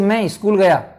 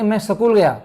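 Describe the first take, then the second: First: An 'i' vowel is added before the 'sk' cluster. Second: The 's' is said as a full 'sa' syllable. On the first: "अलग से ई लगा के करते हैं" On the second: "पूरा से"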